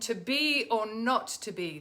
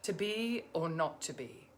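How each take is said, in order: First: It is spoken straight on the in-breath, energized. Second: It follows a sigh and sounds out of breath.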